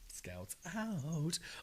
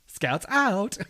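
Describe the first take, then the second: First: It is said in a put-on character voice. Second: It is said in his ordinary speaking voice.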